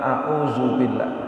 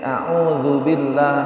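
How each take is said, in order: First: The consonant is a plain z sound. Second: The consonant is a soft th-like sound. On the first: The speaker calls it wrong. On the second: The speaker calls it right.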